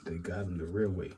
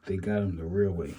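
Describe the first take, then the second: First: Said in the usual way. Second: "real" louder, falling, for emphasis; stress on real. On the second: Shown as a demonstration. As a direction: lean hard on "real" so it lands.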